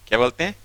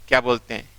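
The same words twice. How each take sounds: Both takes have the same delivery.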